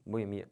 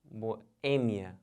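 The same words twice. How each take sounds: First: Boemia with stress on MI, lower; low repeat of late-stressed Boemia; wrong stress. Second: Boêmia split as bo, pause, Ê-mia; deliberate bo-Ê-mia; correct stress. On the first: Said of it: "Mas tá errado". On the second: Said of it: "O certo é". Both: Shown as a demonstration.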